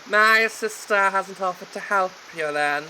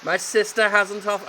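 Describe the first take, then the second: First: A put-on voice, higher and louder; hero voice. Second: Said in the usual way. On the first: Hero to gardener, in a put-on voice. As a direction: play the snooty heir. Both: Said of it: "I'll do a voice for him".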